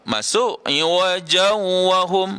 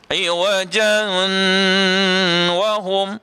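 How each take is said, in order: First: The n merges into w without any nasal sound. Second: The n is nasalized but not merged into w. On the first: "masuk tapi tak dengung, pun salah juga" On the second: "dengungnya ada, tetapi kita tak idghamkan dia, pun tak betul juga"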